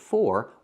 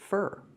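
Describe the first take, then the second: First: The word has a full, clear vowel. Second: The word has a weak, reduced vowel. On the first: The speaker calls it wrong. "we don't pronounce it for" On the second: The speaker calls it right. "we pronounce it fur"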